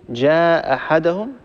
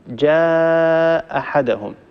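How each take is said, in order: First: The long vowel is held for two beats. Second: The long vowel is held for four beats. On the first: "مد بمقدار حركتين" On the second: "نمد المنفصل بمقدار أربع حركات"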